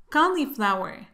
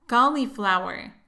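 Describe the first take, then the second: No difference in how they are said.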